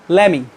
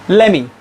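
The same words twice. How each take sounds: No difference in how they are said.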